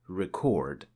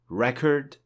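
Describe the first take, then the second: First: The stress is on the second syllable. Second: The stress is on the first syllable.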